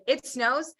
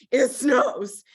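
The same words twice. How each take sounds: First: Said in the usual way. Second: SNOWS hit hard and louder; emphatic repeat. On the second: Shown as a demonstration. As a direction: punch "snows" as the full-on version. Repeats to show nothing half-assed.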